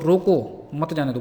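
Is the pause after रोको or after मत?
रोको. There is a pause after रोको.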